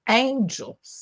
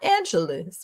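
First: The E before the final S is silent. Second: The E before the final S is sounded. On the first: The speaker calls it right. "make it silent" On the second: The speaker calls it wrong. "not Angeles"

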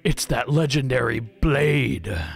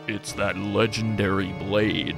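First: It is said in an ordinary speaking voice. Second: It is said in a put-on very deep voice.

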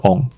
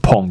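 First: It starts with a vowel, with no p sound. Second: It starts with a p sound, ending in ng. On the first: "它的发音事实上就可以是on" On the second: "我也听过把它念成pong"

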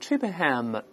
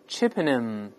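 First: The 'h' sound before the ending is pronounced. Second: The 'h' sound before the ending is silent. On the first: The speaker calls it wrong. "所以不要读成Chippenham，不这么读" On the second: The speaker calls it right. "倒数第三个字母H 是不发音的"

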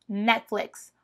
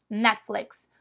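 The two takes are said the same way.

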